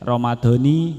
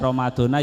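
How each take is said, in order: First: The word ends with an 'i' vowel. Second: The word ends with an 'a' vowel. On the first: The word is in the genitive case. "majruron dibaca jer" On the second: This is the usual everyday reading. "Kalau biasanya Ramadhana ya enggak apa-apa"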